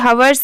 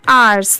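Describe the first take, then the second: First: The word begins with an h sound. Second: The word begins with a vowel sound. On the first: The speaker calls it wrong. "इसे हवर्स नहीं पढ़ेंगे" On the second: The speaker calls it right. "यहाँ पर H letter silent होता है"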